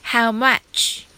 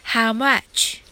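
No difference in how they are said.

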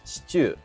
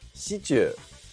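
First: The pitch is high first, then falls. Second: The pitch rises again on the second part. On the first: The speaker calls it right. "正しいイントネーションはシチューだと思います。最初のシにアクセントが来て、チューで下がるんだよね。" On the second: The speaker calls it wrong. "シにアクセントが来るものの、チューの部分で上がってしまうんですよね。"

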